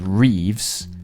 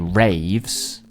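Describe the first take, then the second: First: The vowel is a close ee sound. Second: The vowel is an open ay sound. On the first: It allows little air through for high notes. "I don't say Reeves" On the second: It allows more air through for big notes. "I say raves"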